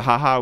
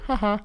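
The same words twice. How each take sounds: First: Quick awkward forced laugh; a small nervous "haha". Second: Soft, breathy nervous "Ha ha"; an awkward little laugh. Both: Retold or imitated. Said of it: "that's like a very nervous laugh".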